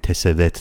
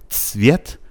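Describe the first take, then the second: First: A vowel is inserted between the first two consonants. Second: The first two consonants are said with no vowel. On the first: The speaker calls it wrong. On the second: The speaker calls it right.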